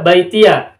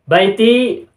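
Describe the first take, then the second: First: The word ends with an added ya syllable. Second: The word ends on a bare i sound.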